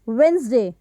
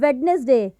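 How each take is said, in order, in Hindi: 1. बीच में कोई d की ध्वनि नहीं बोली जाती। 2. बीच में d की ध्वनि बोली जाती है। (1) "हाउ टू करेक्टली से इट" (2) "यहाँ पर जो ये डी की साउंड है हम उसको ऐड कर देते हैं"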